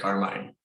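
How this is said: The name is pronounced the American way. This is how it is said in the United States. "in the United States, is we just say Carmine"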